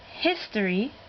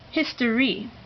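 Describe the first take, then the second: First: The stress falls on the first syllable. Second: The stress falls on the second syllable. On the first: The speaker calls it right. "this word is pronounced history" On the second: The speaker calls it wrong. "instead of history"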